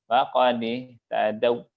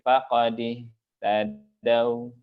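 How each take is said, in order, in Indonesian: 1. Diftong akhir dipotong pendek. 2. Diftong akhir agak dipanjangkan sedikit. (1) "bukan begitu cara mengucapkannya" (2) "tapi faqadihtadau"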